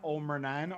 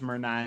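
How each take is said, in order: First: The name begins with an O sound. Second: The name begins without an O sound. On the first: This is the older form of the name. "I would pronounce that Olmernan" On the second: This is the modern form of the name. "I think modern they dropped the O"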